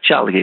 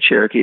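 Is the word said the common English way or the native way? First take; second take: native; common English. First: The word is said the native family way. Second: The word is said the common English way. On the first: This is how the people themselves say the name. "It sounds more like Chalkee, the way my mommy would say it" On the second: This is how outsiders say the name. "We don't say Cherokee"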